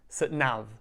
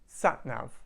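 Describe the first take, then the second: First: The stress falls on the second word. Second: The stress falls on the first word. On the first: The speaker calls it wrong. "They put too much stress on the nav" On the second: The speaker calls it right. "So to sound more natural, try to say sat nav"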